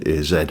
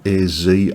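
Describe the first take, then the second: First: The Z is said the British way, zed. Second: The Z is said the American way, zee.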